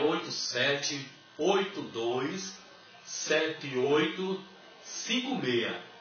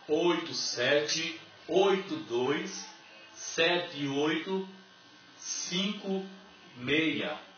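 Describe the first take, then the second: First: It is said at a normal pace. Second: It is said slowly with pauses.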